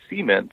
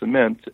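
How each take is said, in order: First: It is said the Louisiana way. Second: It is said the standard way.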